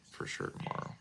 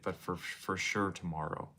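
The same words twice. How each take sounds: First: Low breathy whisper, much softer. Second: Said in the usual way. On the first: Shown as a demonstration. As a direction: whisper it back to yourself. Repeats phrase, second time whispered.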